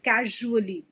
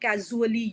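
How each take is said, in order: First: The middle consonant is a soft zh sound. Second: The middle consonant is a plain z sound. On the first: The speaker calls it right. "use j, like casually, usually" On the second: The speaker calls it wrong. "They're saying casually, usually"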